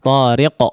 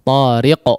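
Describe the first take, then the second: The two takes are said the same way.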